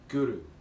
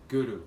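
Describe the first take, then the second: First: The R is rolled with a tongue tap. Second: The same.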